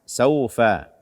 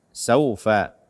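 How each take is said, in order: No difference in how they are said.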